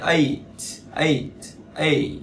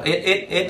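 First: "eight" falling, ending on a puff of T; airy final T. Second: "eight" as short rising "ét"; wrong "ét". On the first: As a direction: release just air on the T of "eight". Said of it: "tờ là âm gió". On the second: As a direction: clip "eight" to E-T, tune up. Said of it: "không phải eight này". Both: Shown as a demonstration.

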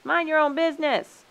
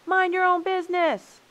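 First: High, loud rebuff; raised voice, falling at the end; indignant shout. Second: Even higher-pitched, loud retort; shrieky raised-voice rebuff; indignant shout. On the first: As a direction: shout them off. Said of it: "shouted the animals". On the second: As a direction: fling it back in a high shout. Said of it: "shouted the human beings". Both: A narrator's reading.

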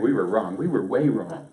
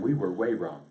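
First: Loud, emphatic mock admission; mock confession. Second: Said in the usual way. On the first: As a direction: own up loudly on their behalf. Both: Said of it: "But basically they said".

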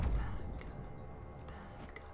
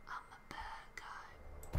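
First: Hushed villain whisper; whispered bad guy. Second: Breathy villain whisper; whispered bad guy. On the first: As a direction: breathe it like a villain. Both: Shown as a demonstration. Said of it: "That's my bad guy voice".

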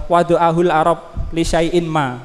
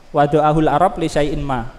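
First: Drawn out Arabic definition; slow recitation. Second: Said in the usual way. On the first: Shown as a demonstration. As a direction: recite the definition slowly for the class.

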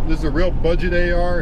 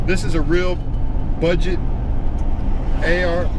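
First: Said in the usual way. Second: Hiccuping between words; words broken up by hiccups. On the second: Real, not acted. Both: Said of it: "Excuse me, I got the hiccups".

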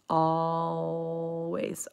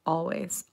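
First: "always" stretched out with a very light L; drawn-out demonstration. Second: Said in the usual way. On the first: Shown as a demonstration. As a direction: draw "always" out slowly to show the sound. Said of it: "we drop the L". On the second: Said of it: "And we say".

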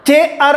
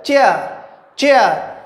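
First: चेयर broken into two beats, चे then अर; wrongly split in two. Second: चेयर glided together with a falling tune; single syllable. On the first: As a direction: say चेयर as if it had two syllables. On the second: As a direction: say चेयर in one unbroken beat, each time. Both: Shown as a demonstration. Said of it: "ऐसे नहीं बोला जाएगा".

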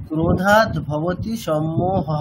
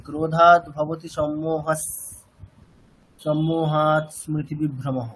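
First: "সম্মোহঃ" ending with a clear breathy visarga; visarga kept. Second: "সম্মোহস" with the visarga turned into a dental s, joined to the next word; slow chant, "সম্মোহস সম্মোহাৎ" run together with an s sound; wrong sandhi reading. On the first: Teacher chanting the verse to students, keeping the visarga. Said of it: "এখানে কি আমরা ওরকম ভাবে উচ্চারণ করছি?". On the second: Teacher demonstrating the wrong joined reading to students. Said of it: "এরকম করছি কি আমরা?". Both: Shown as a demonstration.

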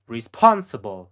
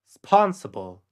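First: Slow whispered "Responsible."; voiceless and drawn out. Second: Said in the usual way. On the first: Shown as a demonstration. Teacher whispering the word for the learner to copy.

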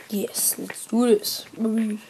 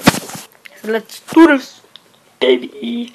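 First: Slow excited whisper; breathy slow hype whisper. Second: Slow, loud hyped-up call; drawn-out loud hype. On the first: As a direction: psych yourself up in a hush. Hyped whisper before the round. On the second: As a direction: pump yourself up out loud. Hyped start of round. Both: Pretend.

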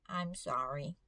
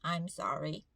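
First: Small, lower, softer apology; boy meekly apologizing to a stranger he bumped, soft and lower. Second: Meek apology. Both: Retold or imitated. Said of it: "너무 착하게 말을 잘 들으면서".

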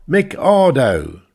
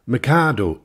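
First: Slow, high, loud sneer; derisive repeat. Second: Said in the usual way. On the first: Acted. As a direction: spit the name out with scorn. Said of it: "he repeated with derision".

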